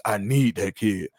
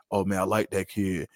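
First: Slow, weighted emphasis on "need"; imitating a coach's insistence, "need" stretched and stressed. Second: Said in the usual way. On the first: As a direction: lean on the word "need", drawing it out. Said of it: "really excited about needing somebody". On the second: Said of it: "It's never".

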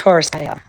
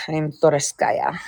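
First: Said in the usual way. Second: Slow, softer Russian accent. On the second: Shown as a demonstration. Putting on the accent at a friend's request, Russian accent. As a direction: introduce yourself slowly with a Russian accent. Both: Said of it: "Do your Russian accent with Toriski".

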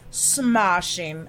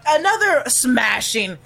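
First: Smashing with a broad British ah, a failed British try; failed British accent. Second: Said in the usual way. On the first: Shown as a demonstration. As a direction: attempt a British Austin Powers smashing. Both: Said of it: "I can't do an accent".

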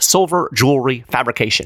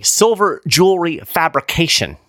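First: Quick tongue-twister. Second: Said in the usual way. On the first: Shown as a demonstration. Host repeating a tricky phrase for fun, slightly fast. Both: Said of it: "Say that three times fast".

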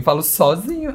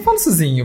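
First: "sozinho" with a clear open O; "sozinho" carefully said as "só-zinho"; careful standard pronunciation. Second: "sozinho" with closed first vowel, "suzinho"; "sozinho" reduced to a Mineiro "suzinho"; Minas pronunciation. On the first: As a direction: insist on a full "só" in "sozinho". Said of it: "Aí eu falo, eu falei". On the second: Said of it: "falando que eu falo sozinho". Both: Shown as a demonstration.

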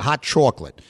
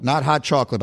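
First: "chocolate" with a rounded AW in the first syllable, as "chawklit"; regional CHOCOLATE. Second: Said in the usual way. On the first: Shown as a demonstration. Host shows how the parents said "chocolate", regional AW vowel. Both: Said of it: "they would have said chocolate".

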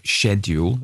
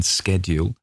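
First: British "schedule", opening like "shed"; British pronunciation. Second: "schedule" with a hard sk at the start; American "schedule", opening with sk; American pronunciation. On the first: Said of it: "an English pronunciation or a British pronunciation". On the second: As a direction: say "schedule" as SKED-yool. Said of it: "I said schedule rather than schedule". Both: Shown as a demonstration.

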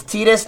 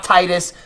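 First: Titus starting like "tea"; Titus as TEE-tus. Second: Titus starting like "tie"; Titus as TIE-tus. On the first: Insisting to friends on the game's pronunciation, Titus as TEE-tus. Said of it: "not Titus". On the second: Showing friends the rejected pronunciation, Titus as TIE-tus. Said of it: "It's Titus, not Titus". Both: Shown as a demonstration.

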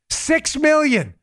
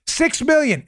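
First: Six million, stretched out slowly and higher; slow mocking emphasis. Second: Said in the usual way. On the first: Shown as a demonstration. Host mocks Biden's donation total, slow and drawn out.

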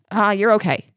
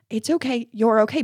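First: Offhand brush-off; dismissive. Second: Put-on gentle reassurance for a hurt child; comforting. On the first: Shown as a demonstration. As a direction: wave the hurt away in one quick breath. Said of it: "that would be really dismissive". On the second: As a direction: soothe them as you say it. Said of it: "I was comforting her".

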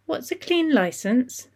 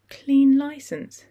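First: Put-on high, slow, wondering little girl; curious child. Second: Slow, stunned echo of the words; numb voice. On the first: Alia asking her father from the floor, innocently curious. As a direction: ask it like a puzzled small child. Young daughter asks innocent question. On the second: Acted. Susie echoing the bad news in shock, numb. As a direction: repeat it as if the news hasn't landed. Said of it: "repeated in a numb voice".

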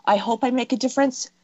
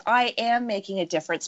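First: Tentative wish, raised pitch; hopeful, non-emphatic. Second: Firm, controlled stress on "am"; emphatic self-affirmation. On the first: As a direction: say it as a mere hope, unsure. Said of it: "fine tune how you're saying that". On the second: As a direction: own it: "am" stated as settled fact. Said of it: "your languaging becomes so emphatic". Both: Shown as a demonstration.

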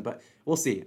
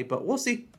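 First: Said in the usual way. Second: "we'll see" rising high at the end; "see" pitched way up like a shrug; rising doubtful tune. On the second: Real, not acted. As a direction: let "but we'll see" lift up, unsure. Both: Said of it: "I don't really think I wanna add a play".

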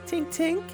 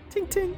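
First: Higher mouthed tink sound; tiny metal tink. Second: Mouth-made metal tink; tiny metal tink. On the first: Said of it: "I have to make it with my mouth". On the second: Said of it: "You made the tink with your mouth". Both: Acted.

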